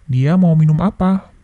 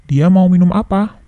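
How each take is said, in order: No difference in how they are said.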